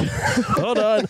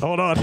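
First: High, laughing hold on. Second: Said in the usual way. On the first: Real, not acted. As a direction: laugh through the words. Repeats while laughing.

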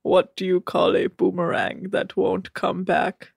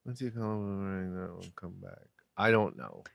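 First: Stiff, measured deadpan riddle; Rob. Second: Very soft, low, quick repeat; musing murmur. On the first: Retold or imitated. Host as Rob telling another joke, deadpan. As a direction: ask it evenly in a put-on monotone. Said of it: "What's that, Rob?". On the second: Real, not acted. [name] puzzling over Rob's riddle, murmuring. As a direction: murmur it to yourself while thinking.

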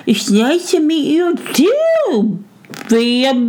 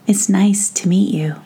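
First: High, slow garbled mouse voice; mouth too full. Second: Said in the usual way. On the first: A narrator's reading. Mouse returns a greeting with peas in his mouth, mouth full. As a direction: mumble it through stuffed cheeks, barely intelligible. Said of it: "with his mouth really too full to speak".

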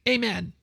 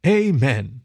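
First: High, small squirrel amen; squirrel's amen. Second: Louder, drawn-out echoed amen; group echo. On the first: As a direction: end the pledge in a little high voice. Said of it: "Roger paused to pull a face". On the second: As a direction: echo it like a whole solemn committee. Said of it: "The gathered committee echoed that last word". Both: A narrator's reading.

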